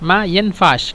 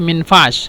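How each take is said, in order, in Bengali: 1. এটি দুটি আলাদা শব্দ হিসেবে বলা হয়। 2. এটি একসাথে মিলিয়ে একটি ছোট শব্দ হিসেবে বলা হয়। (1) "মূলত মা ইয়ানফাস" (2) "একসাথে বলে মিনফাস"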